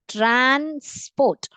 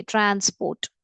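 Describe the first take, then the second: First: transport split as trans, pause, port; two-part dictation. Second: Said in the usual way. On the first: Shown as a demonstration. (Transport को दो भागों में तोड़कर बोलें) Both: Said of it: "दो भागों में डिवाइड करके".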